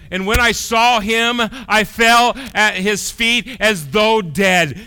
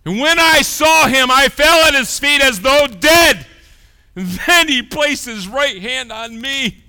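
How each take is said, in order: First: High, loud, slow proclamation; impassioned sermon reading; full-force preaching. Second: Impassioned sermon reading; full-force preaching. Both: Acted. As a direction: proclaim the verse. Preaching the verse.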